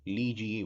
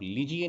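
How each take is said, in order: First: लीजिए with a long ee in ली; long first vowel. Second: लीजिए with a short i in ली; quick short i opening लीजिए; short first vowel. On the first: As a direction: stretch the ली of लीजिए. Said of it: "और वही शुद्ध है". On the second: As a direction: clip the ली of लीजिए. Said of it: "आप लीजिए नहीं बोलते". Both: Shown as a demonstration.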